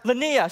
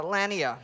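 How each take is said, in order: First: "Lanier" with a weak first syllable, stress on the end, luh-NEER; "Lanier" said luh-NEER, stress moved to the last syllable; corrected stress on name. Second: "Lanier" with stress on the first syllable, LAN-ier; "Lanier" said as LAN-yer, first syllable stressed; wrong stress on name. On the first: Apologising to his host, corrected name: "Lanier" stressed on NEER. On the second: Thanking his host, first slip on the name: "Lanier" stressed on LAN. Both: Real, not acted. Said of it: "I put the emphasis on the wrong syllable".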